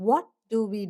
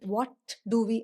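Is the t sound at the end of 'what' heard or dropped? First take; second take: dropped; heard. First: The t at the end of 'what' is dropped. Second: The t at the end of 'what' is pronounced. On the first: The speaker calls it right. "അപ്പോൾ ഇങ്ങനെ പറഞ്ഞാൽ മതി" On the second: The speaker calls it wrong. "വാട്ട് do we പറയാൻ തന്നെ ബുദ്ധിമുട്ടാണ്"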